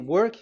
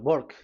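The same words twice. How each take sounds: First: The word begins with a W sound. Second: The word begins with a B sound. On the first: "if you say" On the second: "they say uh, W is pronounced as B"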